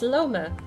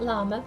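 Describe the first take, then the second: First: The first vowel sounds like 'oh'. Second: The first vowel sounds like 'ah'. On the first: The speaker calls it right. "it's Loma" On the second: The speaker calls it wrong. "It's not llama"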